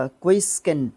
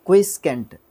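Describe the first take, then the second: No difference in how they are said.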